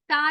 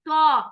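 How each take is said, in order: First: The consonant is light, with no emphatic thickness. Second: The consonant is heavy, with emphatic thickness. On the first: The speaker calls it wrong. "ता नहीं पढ़ेंगे" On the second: The speaker calls it right. "तो को हम मोटा करके पढ़ेंगे"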